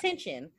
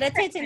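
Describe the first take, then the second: First: The word is pronounced in the standard way. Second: The word is pronounced in an altered, nonstandard way. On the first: The speaker calls it right. "instead of attention" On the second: The speaker calls it wrong. "He said attention"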